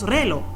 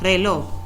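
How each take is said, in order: First: The stress is on the first syllable. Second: The stress is on the last syllable. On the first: The speaker calls it wrong. "no decimos reloj" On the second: The speaker calls it right. "sino reloj, es una palabra aguda"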